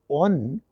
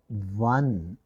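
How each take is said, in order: First: It begins with a plain vowel sound. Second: It begins with a 'w' consonant sound. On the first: The speaker calls it wrong. "We don't pronounce it as on" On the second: The speaker calls it right. "it is one. The word one begins with the sound wa"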